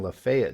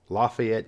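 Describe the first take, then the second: First: It is said the Georgia way. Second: It is said the Indiana way. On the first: "and Lafayette, Georgia" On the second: "Lafayette, Indiana"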